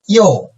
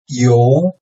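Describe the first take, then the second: First: The pitch falls sharply from high to low. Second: The pitch rises from mid to high.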